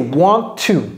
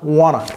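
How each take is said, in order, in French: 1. Les deux mots se disent en entier et séparément. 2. Les mots se fondent en un seul mot réduit. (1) "Ça, en fait, c'est want to" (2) "Mais les Américains aiment dire wanna"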